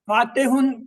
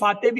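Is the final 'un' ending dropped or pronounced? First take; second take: pronounced; dropped. First: The word ends with a clear 'un' sound. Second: The word stops without the 'un' ending. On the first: "फातेहुन कह सकते हैं" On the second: "जब बोलते रुकते हैं किसी लफ्ज पे तो उसकी तनवीन ... वो नहीं पढ़ते"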